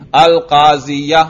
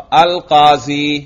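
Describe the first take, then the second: First: القاضیہ slowly, with audible final "-ya"; case ending pronounced. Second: القاضی drawn out slowly, ending in long "ee"; no case ending. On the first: Teacher testing students' ears, fatha read aloud. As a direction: add a clear "a" after the ya in القاضیہ. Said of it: "اب میں نے کوئی اعراب پڑھا؟". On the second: Teacher testing students' ears, no case vowel read. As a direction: say القاضی slowly with nothing after the "ee". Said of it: "میں نے کوئی اعراب پڑھا؟". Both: Shown as a demonstration.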